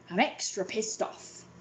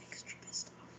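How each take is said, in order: First: Said in the usual way. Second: Whispered repeat. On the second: Shown as a demonstration. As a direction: breathe it out with no voice.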